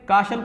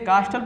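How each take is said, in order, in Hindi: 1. बीच का t silent है। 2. बीच का t बोला जाता है। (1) "ऐसे काशल पढ़ते हैं" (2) "गलतियाँ इसे कास्टल पढ़ देते हैं"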